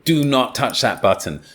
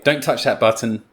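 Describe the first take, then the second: First: It sounds strong, emphatic and bossy. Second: It sounds casual and relaxed.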